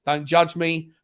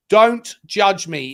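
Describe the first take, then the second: First: Said in the usual way. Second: "Don't judge me" slow, louder, each word separate; emphatic repeat. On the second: Real, not acted. Tipsy fan defending his drink, slow emphatic "Don't judge me". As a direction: lean hard on "Don't", drawing out "Don't judge me".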